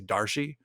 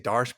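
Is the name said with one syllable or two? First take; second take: two; one. First: It is said as two syllables ending in ee. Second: It is said as one syllable ending in sh. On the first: "they say Darshi" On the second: "I say Darsh"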